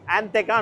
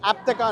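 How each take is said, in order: First: The second consonant is an 'n' sound. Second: The second consonant is a 'p' sound. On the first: The speaker calls it wrong. "యాంతెకా అనుకుంటాం మనం అది చూస్తే" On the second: The speaker calls it right. "దాన్ని ఆప్తెకా అని పిలుస్తారు అనమాట"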